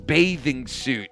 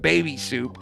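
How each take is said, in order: First: It is pronounced like 'bathing suit'. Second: It is pronounced like 'baby soup'. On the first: An adult says the word correctly. The speaker calls it right. "It's bathing suit" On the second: A small child mispronounces the word. The speaker calls it wrong. "it's not baby soup"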